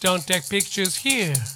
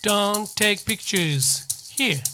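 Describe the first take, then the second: First: The sentence is said at a fast speed. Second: The sentence is said at a normal speed.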